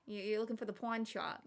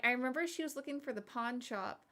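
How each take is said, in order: First: Looking for the pawn shop with pawn as pwine, thick East Coast; a light East Coast mom accent; imitating mom's East Coast accent. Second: Said in the usual way. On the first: Shown as a demonstration. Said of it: "thick East Coast accent". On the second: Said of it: "you say pawn".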